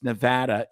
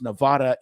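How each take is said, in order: First: It uses the pronunciation local residents use. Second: It uses the pronunciation outsiders use. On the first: The speaker lives there. The speaker calls it right. "It's Nevada if you live there" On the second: The speaker does not live there. The speaker calls it wrong. "It's Nevada if you don't and you're a dickhead"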